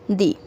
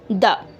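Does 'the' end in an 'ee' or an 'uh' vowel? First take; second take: ee; uh. First: The word ends in a long 'ee' vowel. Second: The word ends in a short 'uh' vowel. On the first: The next word starts with a vowel sound. "the second pronunciation of this spelling is the" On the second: The next word starts with a consonant sound. "if the spelling is started by any consonant ... we have to pronounce this spelling as the"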